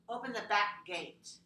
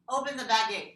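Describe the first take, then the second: First: A voiceless k is held before the g. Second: The k is voiced, merging into the g. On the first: The speaker calls it right. "you do need to have a voiceless characteristic first, then the voice g next" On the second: The speaker calls it wrong. "If we don't, we have baggate. ... no"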